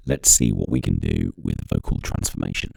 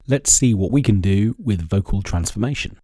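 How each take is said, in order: First: Very deep pitched-down voice; slowed-down monster-deep effect; pitch shifted voice. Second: Said in the usual way. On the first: Shown as a demonstration. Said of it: "that's pitch change".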